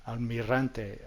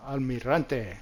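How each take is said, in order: Both takes have the same delivery.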